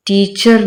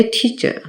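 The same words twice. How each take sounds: First: टीचर with a rolled r at the end; टीचर, final r sounded, as the mistake; wrong pronunciation. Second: टीचर ending in a soft schwa, no r; टीचर said lightly and higher, r dropped; correct pronunciation. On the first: Teacher showing students the mistake, final r sounded. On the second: Teacher giving students the right form, r dropped. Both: Shown as a demonstration. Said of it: "टीचर नहीं कहते".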